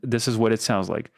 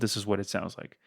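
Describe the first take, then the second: First: The voice is loud and less controlled. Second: The voice is quieter and more controlled. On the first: "I can bring it up to seventy-six ... I know it's a lot louder, but uh, a lot more uncontrolled" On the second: "if I bring it down to sixty-five"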